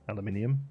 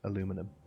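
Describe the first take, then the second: First: The word is said with five syllables. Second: The word is said with four syllables. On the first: This is the British form. "in the U K, it's spelled aluminium. There's an extra I in there" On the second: This is the North American form. "in the U S and and North well North America, they say aluminum"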